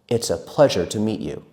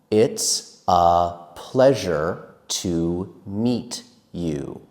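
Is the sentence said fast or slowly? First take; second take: fast; slowly. First: The sentence is said quickly and smoothly. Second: The sentence is said slowly and carefully. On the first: "faster and faster" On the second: "I will say it faster and faster"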